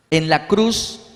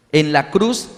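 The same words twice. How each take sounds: The two takes are said the same way.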